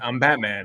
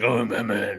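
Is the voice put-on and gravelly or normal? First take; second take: normal; gravelly. First: It is said in a plain normal speaking voice. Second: It is said in a put-on gravelly Batman voice.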